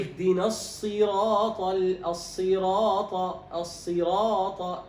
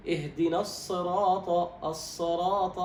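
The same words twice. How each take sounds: First: "الصراط" with a clear, complete i after ص, slow and louder; full kasra, correct. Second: "الصراط" with the kasra under the ص snatched short; clipped kasra, wrong. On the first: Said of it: "الصواب". (إتمام كسرة الصاد في "الصراط") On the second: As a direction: cut short the i vowel after ص in "الصراط". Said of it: "هذا خطأ". (اختلاس كسرة الصاد في "الصراط") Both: Shown as a demonstration.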